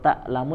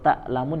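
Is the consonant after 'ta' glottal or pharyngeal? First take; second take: glottal; glottal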